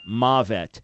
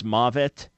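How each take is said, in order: First: Mavet said slowly as MAH-vet, falling; Hebrew pronunciation. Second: Mavet said as MAH-vet, stress on first syllable; Hebrew pronunciation. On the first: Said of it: "that is how to pronounce it". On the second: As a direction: say mavet with a broad ah then vet. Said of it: "How do you say death in Hebrew?". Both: Shown as a demonstration.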